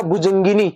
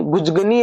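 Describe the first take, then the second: First: भुजंगिनी with nasal ng and short i; correct pronunciation. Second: भुजगनी with no ng and no middle i; mistaken pronunciation. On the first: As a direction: sound "jan-gi" in भुजंगिनी. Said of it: "भुजंग में बनेगा". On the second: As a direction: drop both sounds, भुजगनी. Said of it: "है वो गलत है". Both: Shown as a demonstration.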